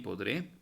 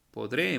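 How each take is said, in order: First: Said in the usual way. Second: Podré said louder with a rise; emphatic answer. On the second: Shown as a demonstration. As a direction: present podré as the answer, loud and rising. (podré dicho con fuerza y tono ascendente) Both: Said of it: "Muy bien".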